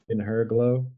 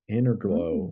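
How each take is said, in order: First: Said carefully, with 'in' and 'her' kept separate. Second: Said quickly, 'in her' blends into 'inner'. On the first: "explain it's" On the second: "have to say it fastly. It sounds like Inner Glow"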